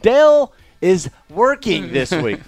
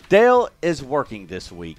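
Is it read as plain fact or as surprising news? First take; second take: surprising news; plain fact. First: It is read as if announcing surprising news. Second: It is read as a plain, routine fact.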